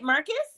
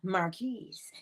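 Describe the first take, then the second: First: The name ends with a short 'kus' sound. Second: The name ends with a long 'keese' sound. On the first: The speaker calls it wrong. "Am I saying it right" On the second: The speaker calls it right. "No, Marquise"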